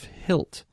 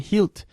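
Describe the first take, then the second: First: It is said with a modern English pronunciation. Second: It is said with an Old English pronunciation. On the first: "instead of hilt" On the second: "I'm saying hilt"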